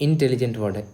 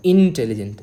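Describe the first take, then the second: First: Said in the usual way. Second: intelligent with a louder, punched first syllable in; stress on in. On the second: Shown as a demonstration. Teacher to students, stressing intelligent on its first syllable. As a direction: hit the in of intelligent hard. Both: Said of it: "in पर ज़्यादा जोर दे रहे हैं".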